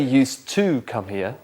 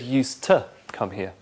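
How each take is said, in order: First: The word 'to' has a full vowel. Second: The word 'to' has a weak uh vowel. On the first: The speaker calls it wrong. "You didn't say used to come here" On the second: The speaker calls it right. "you said used to come here"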